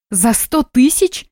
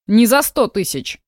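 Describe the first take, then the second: First: Slow, higher disbelieving rise on "сто"; shocked question. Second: Said in the usual way. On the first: Acted. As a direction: stretch out "За сто тысяч?" in disbelief, rising high on "сто". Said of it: "Не ори!". (медленно, с изумлением, «сто» с подъёмом)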